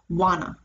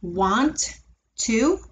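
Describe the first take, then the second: First: The words blend into one with no t sound. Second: Both words are said separately with clear t sounds. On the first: "when we say them in a sentence, especially in informal conversation or if we're speaking quickly" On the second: "If we say them one at a time"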